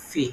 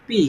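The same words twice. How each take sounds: First: "ফি" with a strong puff of air on the p; aspirated P. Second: Said in the usual way. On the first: Shown as a demonstration. Teacher demonstrates the letter P, "ফি" with aspirated first sound. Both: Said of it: "এর উচ্চারণ হবে".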